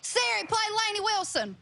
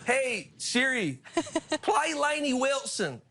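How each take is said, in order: First: Thick Southern accent. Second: Slow, high imitation of a Southern drawl; mock Southern accent. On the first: [name] at home in Louisiana, asking Siri for her song: thick Southern accent. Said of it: "in your [name] accent". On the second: Host copying [name]'s accent for Siri, slow mock Southern drawl. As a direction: stretch it out like a Louisiana local. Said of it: "Do it in your [name] accent". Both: Shown as a demonstration.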